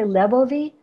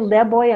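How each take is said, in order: First: A v sound is heard between the vowels. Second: No v sound is heard between the vowels. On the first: This is the speaker's own dialect form. "I say lebovi" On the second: This is the other person's dialect form. "you say leboy ... v disappeared ... intervocalically"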